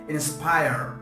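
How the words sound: It is said in an American accent. "American English"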